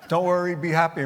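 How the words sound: It is said with a light Jamaican accent.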